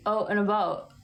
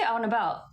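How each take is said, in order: First: Out and about with rounded oh vowels, like oat; a light, mock Canadian out and about. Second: Said in the usual way. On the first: Shown as a demonstration. Mocking the viewer's guess, in a light Canadian accent. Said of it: "I don't say out and about". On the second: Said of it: "How would you say out and about?".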